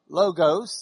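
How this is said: The word is said in a West Texas accent. The speaker calls it wrong. "in Lubbock pronunciation"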